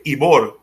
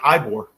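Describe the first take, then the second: First: The name has a Spanish pronunciation. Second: The name has an English pronunciation. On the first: "like in Spanish, you say Ibor" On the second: "in English, he's like, it would probably would have been Ibor"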